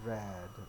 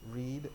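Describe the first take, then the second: First: It sounds like the color red. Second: It does not sound like the color red. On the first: It is the past form of the verb. "Red as in color" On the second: It is the present form of the verb. "Pertama adalah read"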